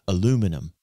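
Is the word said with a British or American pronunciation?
American. It is said the American way, four syllables.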